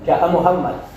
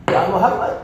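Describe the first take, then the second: First: "Ja'a Muhammad" with a falling tune on "Ja'a", a plain statement; intonation demo. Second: "Ja'a Muhammad" higher, rising on "Muhammad" as a question; intonation demo. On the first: ("Ja'a Muhammad" dengan nada turun) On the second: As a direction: ask "Ja'a Muhammad" with a rise at the end. ("Ja'a Muhammad" dengan nada naik bertanya) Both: Shown as a demonstration. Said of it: "Loh, beda sudah, maknanya beda".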